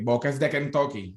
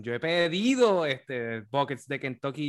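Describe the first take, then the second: First: A throwaway line that lands on "de" and drops; flat storytelling stress. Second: "buckets" punched, rising toward "Kentucky"; punchline stress. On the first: Real, not acted. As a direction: stress on "de" in "buckets de Kentucky", with a falling end. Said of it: "se la pusiste en el lugar incorrecto". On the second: Shown as a demonstration. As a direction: build to the payoff, lifting on "buckets de Kentucky". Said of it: "Tenías que terminar con el".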